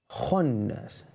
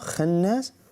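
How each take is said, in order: First: The KH is pronounced heavy with full mouth. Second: The KH is pronounced light and thin. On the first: The speaker calls it right. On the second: The speaker calls it wrong.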